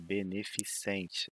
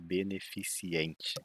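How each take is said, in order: First: The ending is said as -cente. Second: The ending is said as -ciente. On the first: The speaker calls it right. "É beneficente" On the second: The speaker calls it wrong. "não é beneficiente"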